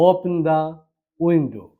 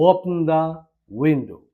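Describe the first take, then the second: No difference in how they are said.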